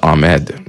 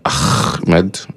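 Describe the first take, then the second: First: The h sound in the middle is silent. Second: The h sound is a harsh, forceful ha. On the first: "most people just pronounce it Ahmed" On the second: "they actually make it like a ha sound"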